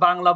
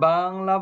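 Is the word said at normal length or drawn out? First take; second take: normal; drawn out. First: The word is said at normal length. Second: The vowels of the word are drawn out. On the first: "স্বাভাবিকভাবে" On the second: "একটু লম্বা করে বলি, দীর্ঘ করে বলি"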